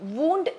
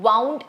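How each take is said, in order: First: The vowel sounds like 'oo' in 'moon'. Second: The vowel sounds like 'ow' in 'cow'. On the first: It means an injury. "Pronunciation വൂണ്ട് എന്നുമാണ്" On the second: It means wrapped around. "Pronunciation വൗണ്ട് എന്നാണ്"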